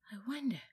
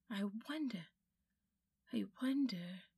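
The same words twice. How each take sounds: First: Said in the usual way. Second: Whispered wondering. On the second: A narrator's reading. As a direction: whisper it to himself, spellbound. Diggory musing over the bell.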